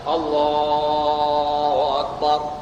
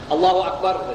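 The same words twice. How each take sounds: First: The phrase is drawn out and lengthened. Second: The phrase is said short and quick. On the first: The people behind can tell the imam is rising. The speaker calls it right. "takbirnya panjang" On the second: The people behind cannot tell whether to sit or stand. The speaker calls it wrong. "Mana ada panjang-panjang"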